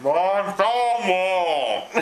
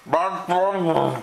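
First: Slow, giggling through the words; laughing and drawn out. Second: Deep, slow mock announcer; slow and drawn out. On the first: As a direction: stretch it out while laughing. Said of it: "repeats slowly, laughing". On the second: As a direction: stretch out each word slowly. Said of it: "repeats slowly for camera". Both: Shown as a demonstration.

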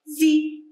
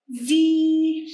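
First: زي as a short, quick "zi"; short kasra sound. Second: زي held out as a long "zeee"; long ya sound. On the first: Teacher drilling short against long sounds, short زي. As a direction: cut the vowel of زي short. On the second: Teacher drilling short against long sounds, long زي. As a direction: stretch the vowel of زي. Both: Shown as a demonstration. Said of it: "بين الأصوات القصيرة والطويلة".

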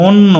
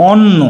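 First: অন্ন with a rounded o, "on-no"; as spoken. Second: অন্ন with an open "aw" first vowel; as written. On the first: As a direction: say অন্ন starting on a closed o. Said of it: "কিন্তু আমরা কি বলি". (অন্ন-তে অ-কে ও বলে উচ্চারণ) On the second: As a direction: say অন্ন as "awn-no". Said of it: "এখানে লেখা আছে কি". (অন্ন-তে খোলা অ উচ্চারণ) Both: Shown as a demonstration.

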